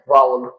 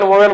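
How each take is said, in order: First: The first vowel sounds like 'ow'. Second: The first vowel sounds like 'oh'. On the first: The speaker calls it right. "इसका असली pronunciation जो है ना, उसका pronunciation उच्चारण है वावल" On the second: The speaker calls it wrong. "सबको ही अभी तक में वोवेल वोवेल बोलते आए हैं"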